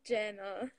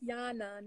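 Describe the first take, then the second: First: The name begins with a J sound. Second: The name begins with a Y sound. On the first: The speaker calls it wrong. "not Jana" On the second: The speaker calls it right. "It's Yana"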